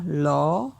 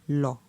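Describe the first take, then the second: First: The syllable is said on a rising tone. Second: The syllable is said on a low tone. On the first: "Pour un ton montant" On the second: "pour un ton bas"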